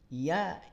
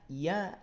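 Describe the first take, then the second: No difference in how they are said.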